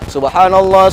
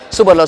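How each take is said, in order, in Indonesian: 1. Cepat, tapi setiap bunyinya jelas. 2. Terburu-buru dan bunyinya menyambung. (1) "Boleh kita cepat, tapi tetapkan uh, bacaannya tuh pasihkan" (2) "enggak benar lagi bacanya"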